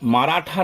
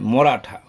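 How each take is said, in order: First: The first vowel is a long open 'aa'. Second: The first vowel is a short 'o'. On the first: The speaker calls it wrong. "মারাঠা নয়" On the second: The speaker calls it right. "নয় মরাঠা"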